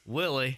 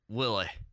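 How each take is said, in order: First: It is said in the speaker's normal accent. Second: It is said in a Scottish or Irish accent.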